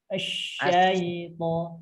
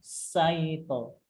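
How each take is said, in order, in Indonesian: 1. Diucapkan dengan bunyi "sh" yang mendesis. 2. Diucapkan dengan bunyi "s" yang tajam. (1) "anginnya dikenai di tengah lidah" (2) "Saito itu masih anginnya masih mengenai eh, lidah lidah ujung"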